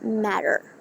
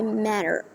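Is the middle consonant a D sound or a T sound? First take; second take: D sound; D sound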